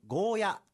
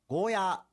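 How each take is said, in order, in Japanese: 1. 最後の母音は短い。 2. 最後の母音は長く伸ばす。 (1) "よくゴーヤーと言われますが" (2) "うちなーんちはゴーヤーと伸ばして発音します"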